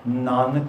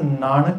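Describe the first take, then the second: First: The middle n is a dental sound. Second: The middle n is a retroflex sound. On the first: The speaker calls it right. "ਸੋ ਦੋਨਾਂ ਵਾਰੀ ਨੰਨਾ ਹੀ ਉਚਰਿਤ ਹੁੰਦਾ" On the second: The speaker calls it wrong. "ਨਾਨਕ ਨਹੀਂ ਗਾ"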